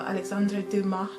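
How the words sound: The name is said with a French pronunciation.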